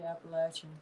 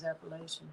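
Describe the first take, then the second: First: It is said the way locals say it. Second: It is said the way outsiders say it. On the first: This is how people from the region say it. "I think there they say Appalachian" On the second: This is how people from elsewhere say it. "Everyone from everywhere else says Appalachian"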